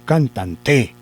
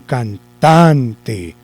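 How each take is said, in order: First: The stress is on the last syllable. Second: The stress is on the middle syllable. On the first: The speaker calls it wrong. "la vamos a correr. ... ¿Cierto que no?" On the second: The speaker calls it right. "Entonces la corremos. ... Parece que ahí sí"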